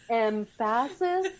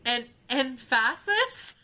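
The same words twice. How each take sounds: First: "Emphasis" slow, first syllable punched; "Emphasis" drawn out, weight on EM; stress on EM. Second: "emphasis" slow and rising, first syllable hit; "emphasis" stretched with a rising tune; stress on emphasis. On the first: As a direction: hit EM in "Emphasis" hard and slow. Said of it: "on the right syllable". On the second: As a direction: drag out "emphasis" as a question. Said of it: "Emphasis on the word old". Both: Shown as a demonstration.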